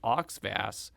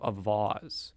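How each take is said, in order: First: The name is said like 'OX-vass'. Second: The name is said like 'a-VOZ'. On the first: The speaker calls it wrong. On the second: The speaker calls it right.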